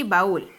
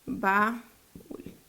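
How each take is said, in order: First: Said in the usual way. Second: "Baúl" split as "ba" and "úl", long gap; syllable by syllable. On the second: Shown as a demonstration. Teacher divides another example, "Baúl" syllable by syllable. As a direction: pause between the two syllables of "Baúl", softer. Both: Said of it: "la dividimos en sílabas".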